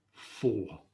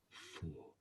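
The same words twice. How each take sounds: First: Said in the usual way. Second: Low, unvoiced whisper of a secret answer; whispered prompt. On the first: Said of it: "So he said". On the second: Wife prompting her husband in a whisper. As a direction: hiss the answer under the breath. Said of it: "instructed by his wife to say".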